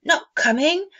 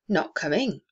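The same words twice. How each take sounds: First: High, louder disbelieving question; dismayed surprise. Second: Said in the usual way. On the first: A narrator's reading. Bob questioning his wife in dismay. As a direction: sound let down and astonished. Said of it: "with a sudden declension in his high spirits". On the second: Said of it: "said Missus Cratchit".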